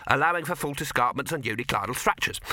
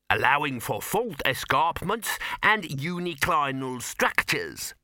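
First: Quicker dwarf repetition; brisk, impatient echo of a technicality; brisk concession. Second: Slow, deliberate dwarf expert; higher, measured pedantic interjection; slow caveat. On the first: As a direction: rattle off the caveat to get it accepted. First dwarf concedes the caveat. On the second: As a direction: add the technicality with weighty care. Dwarf adds a technical caveat. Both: Acted.

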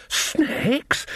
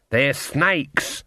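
First: High, breathless squeak of disbelief; wheezed. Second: Said in the usual way. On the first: A narrator's reading. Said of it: "Nanny wheezed".

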